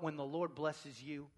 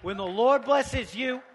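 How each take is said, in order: First: Soft, low aside; understated. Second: Loud, raised preacher's voice; getting loud. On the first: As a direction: say it quietly, holding back. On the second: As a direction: let it ring out over the room. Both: Shown as a demonstration. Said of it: "it's okay to get loud".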